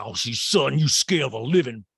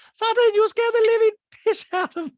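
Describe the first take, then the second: First: Loud, mid-pitched attempt at the voice; false-start mock quote. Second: Piercingly high, loud caricature; exaggerated mock quote. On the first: Host begins quoting housewife scolding another, louder own-pitched voice. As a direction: start the imitation without lifting the pitch. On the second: Host restarts housewife's scolding, very high loud mock voice. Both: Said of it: "She's like".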